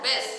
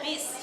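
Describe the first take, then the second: First: The vowel sounds like an open 'e'. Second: The vowel sounds like a clear 'i'. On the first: The speaker calls it wrong. "Nggak ada huruf bes" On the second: The speaker calls it right. "adanya bis"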